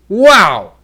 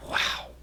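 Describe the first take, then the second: First: Loud, higher amazed "Wow"; big surprise. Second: Whispered, baffled "Wow"; quiet puzzlement. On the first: Teacher showing volume changes meaning, big loud surprise. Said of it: "that is a big surprise". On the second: Teacher showing volume changes meaning, quiet puzzled wow. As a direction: breathe "Wow" out softly, not understanding. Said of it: "something that you don't understand". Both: Shown as a demonstration.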